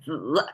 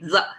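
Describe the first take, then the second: First: The syllable carries its full pitch contour. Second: The syllable is short, light and toneless. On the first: "instead of 子" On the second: "we actually say 子"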